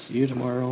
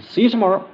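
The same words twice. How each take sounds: First: Said in the usual way. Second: High, loud, bouncy; girl's chirpy goodbye. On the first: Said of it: "And everybody say". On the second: Retold or imitated. Little girl saying goodbye to the group, high and chirpy. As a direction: pipe it up like an excited child. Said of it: "and they said".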